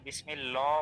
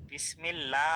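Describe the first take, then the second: First: বিসমিল্লাহ said as "bismillo", rounded o; hypothetical heavy-l বিসমিল্লাহ; thick "lo" variant. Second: বিসমিল্লাহ with open "laa"; thin "la" sound. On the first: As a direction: stretch a heavy "lo" ending in বিসমিল্লাহ. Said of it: "আমরা তো চাইলে বিসমিল্লাহ বলতে পারতাম". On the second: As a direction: stretch the light "laa" in বিসমিল্লাহ. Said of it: "আমরা কেন বলতেছি". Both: Shown as a demonstration.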